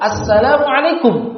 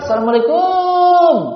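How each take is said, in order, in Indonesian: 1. Suku kata terakhir kum dibaca pendek dan terpotong. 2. Suku kata terakhir kum dibaca panjang. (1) "Padahal kum, mimnya dia, dia apa? Disukun" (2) "Bukan ... Panjang sekali kumnya"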